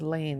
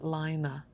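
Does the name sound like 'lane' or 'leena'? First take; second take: lane; leena. First: The name is said like the French word 'laine'. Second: The name is said as 'Lina', with two syllables. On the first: It is read as the French word for wool. The speaker calls it wrong. "Everybody wants to pronounce it as laine, which is the French word for wool" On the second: It is read the Nordic way. The speaker calls it right. "pronounces it Lina. So I think that's probably the right way to say it"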